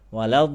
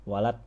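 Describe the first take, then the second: First: The final consonant flows on with continuing sound. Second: The final consonant is stopped short and empty. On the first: The speaker calls it right. "ini ngalir nih" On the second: The speaker calls it wrong. "Ini kosong nih. Kalau kosong gini salah"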